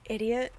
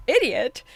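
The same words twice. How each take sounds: First: Said in the usual way. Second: Loud indignant echo, Idiot? flung back; outraged shout. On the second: Real, not acted. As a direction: throw the word Idiot? back in shocked outrage. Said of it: "Oh, oh, pause".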